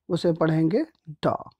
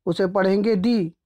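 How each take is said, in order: First: द said as a short, weak duh, slower. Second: डी said as a long dee, falling. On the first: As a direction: close with a short, slow द. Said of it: "consonant से शुरू हुआ है". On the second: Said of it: "अगर ये vowel से शुरू हुआ है". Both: Shown as a demonstration.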